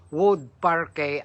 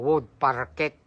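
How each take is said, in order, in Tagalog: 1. Hindi binibigkas nang tulad ng spelling ang parquet. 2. Binibigkas nang tulad ng spelling ang parquet. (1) "ang tamang pronunciation doon" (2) "ang mababasa mo"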